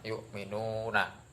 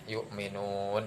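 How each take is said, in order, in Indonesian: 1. Kata ini berakhir dengan vokal di akhir kata. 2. Kata ini berakhir dengan konsonan setelah vokal yang dipanjangkan. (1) "yang awalnya yuk minuna" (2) "dibaca panjang dengan bacaan yuk minun"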